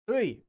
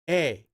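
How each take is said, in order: First: The vowel is the glide 'ui'. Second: The vowel is a plain 'e'. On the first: "you can just read it like this" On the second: "you can also pronounce it like this"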